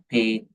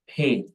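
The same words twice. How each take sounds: First: The p is said without a puff of air. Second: The p is said with a puff of air. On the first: The speaker calls it wrong. "not pay" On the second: The speaker calls it right. "it's pay"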